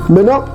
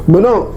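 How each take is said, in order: Both takes have the same delivery.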